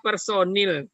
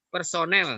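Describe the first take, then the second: First: The last syllable has an 'i' vowel. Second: The last syllable has an 'e' vowel. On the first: This is the non-standard form. The speaker calls it wrong. "berarti bentuk tidak bakunya adalah personil" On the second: This is the standard form. The speaker calls it right. "Yang benar adalah"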